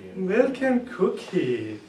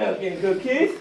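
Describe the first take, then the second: First: The phrase is said in a sad tone. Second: The phrase is said in an angry tone. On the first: "it looks sad to me" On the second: "If I'm mad"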